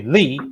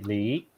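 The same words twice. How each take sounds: First: "Li" pitched up, then falling. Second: "Li" starting low and climbing; rising tone on Li. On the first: Co-host explaining the four Chinese tones, falling tone on "Li". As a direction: say "Li" with a clear drop in pitch. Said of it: "there are four tones". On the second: Co-host contrasting two words written Li for listeners, rising tone on "Li". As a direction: say "Li" with pitch sweeping upward. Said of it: "it's a different word than if you say". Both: Shown as a demonstration.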